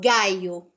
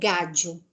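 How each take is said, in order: First: The 'll' is said like a 'y' sound. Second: The 'll' is said like a 'zh' sound. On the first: This is how it is said in Spain. "o espanhol que eu falo, gente, é o da Espanha... Então eu falo gaio, como se fosse um I" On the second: This is how it is said in Argentina. "Se fosse na Argentina, é um som de já"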